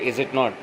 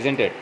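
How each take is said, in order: First: Not is said as a full separate word. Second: Not is shortened and joined onto is.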